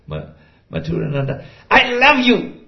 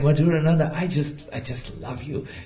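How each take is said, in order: First: It is said in a harsh, aggressive tone. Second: It is said in a soft, loving tone. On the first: The love does not reach the listener's heart. The speaker calls it wrong. "it sounded so aggressive" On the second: The love is felt in the listener's heart. The speaker calls it right. "that would be different"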